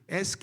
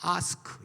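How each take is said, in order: First: It is said in an American accent. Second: It is said in a British accent. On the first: "미국식 영어니까" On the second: "영국식 발음으로는"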